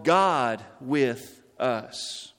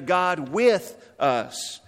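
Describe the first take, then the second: First: The word God carries the emphasis. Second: The word with carries the emphasis. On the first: It is God himself who came. "emphasizing first of all" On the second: God is present beside people, not only above. "That God is not just above us, but he is with us"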